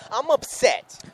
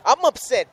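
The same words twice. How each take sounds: First: High, strained and plainly fed up; upset. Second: Pitched up, pushed and louder with real frustration; upset. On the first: Co-host repeating to Big Al that he's upset. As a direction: say it like you can't let it go. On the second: Co-host venting to Big Al about the manager, upset. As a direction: let the upset show in every word. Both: Real, not acted. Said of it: "as you can hear the tone in my voice".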